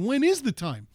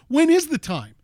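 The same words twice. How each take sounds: First: It is said at normal, quiet volume. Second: It is said loudly, in full voice.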